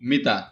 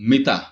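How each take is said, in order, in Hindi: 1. शब्द 'a' स्वर से खत्म होता है। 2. शब्द 'a' स्वर से खत्म होता है।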